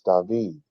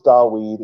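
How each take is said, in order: First: The middle consonant is a V sound. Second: The middle consonant is a W sound. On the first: The speaker calls it right. "It's David" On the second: The speaker calls it wrong. "It never was Dawid"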